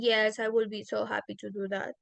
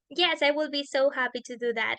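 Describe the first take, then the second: First: It is said flatly, with no emotion, sounding sarcastic. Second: It is said warmly, with emotion, sounding genuinely excited. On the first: The speaker does not really want to go. "it seems like my answer is is being sarcastic" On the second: The speaker really wants to go. "it seems like I really want to go out with them"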